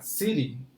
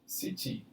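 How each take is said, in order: First: The t sounds like a quick r. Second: The t is pronounced as a clear t. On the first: This is the American pronunciation. "esse T aqui, ele vai ter um som de R. Então vai ficar city" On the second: This is the British pronunciation. "que é o britânico"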